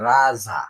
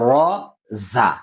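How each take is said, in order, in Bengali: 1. দুটি হরফের নাম একসাথে মিলিয়ে এক শব্দের মতো বলা হয়। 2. দুটি হরফের নাম আলাদা করে, মাঝে একটু থেমে বলা হয়। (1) "আমরা রাজা এরকম পড়েছি" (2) "ঠিক করে পড়ব"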